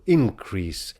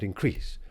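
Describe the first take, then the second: First: Increase with the weight on IN-; IN-crease, hit the first syllable; stress on first syllable. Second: Increase with the weight on -crease; in-CREASE, lean on the second syllable; increase stressed at the end, as the verse needs. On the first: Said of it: "We today would be inclined to stress it on the first syllable". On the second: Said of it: "increase really wants to stress on the second syllable". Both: Shown as a demonstration.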